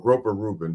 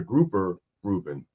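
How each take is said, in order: First: The fish word has an 'oh' vowel. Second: The fish word has an 'oo' vowel. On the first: The speaker calls it wrong. "I used to say groper first" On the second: The speaker calls it right. "but it's a grouper Reuben"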